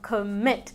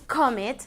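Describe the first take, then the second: First: The stress is on the second syllable. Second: The stress is on the first syllable. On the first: The speaker calls it right. "sino commit. La entonación está al final" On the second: The speaker calls it wrong. "No es commit"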